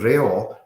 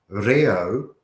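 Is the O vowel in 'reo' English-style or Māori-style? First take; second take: Māori; English. First: The O is said like a Māori O. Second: The O is said like an English O. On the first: The speaker calls it right. "instead of reo" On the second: The speaker calls it wrong. "if you're saying reo instead of"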